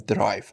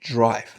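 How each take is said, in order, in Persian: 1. کلمه با صدای ساده d شروع میشه. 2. کلمه با صدایی شبیه j شروع میشه. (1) "نمیگم درایو" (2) "دی صدای ج میده"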